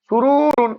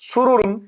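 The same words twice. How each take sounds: First: The first 'ru' vowel is drawn out long. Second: Every vowel is kept short, with no lengthening. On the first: The speaker calls it wrong. "প্রথম রুতে টান হয়ে গেল ... ভুল হয়ে গেল" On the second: The speaker calls it right. "এটা বলবো সুরুরুন ... কোথাও টান নেই"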